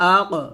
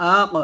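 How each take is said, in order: No difference in how they are said.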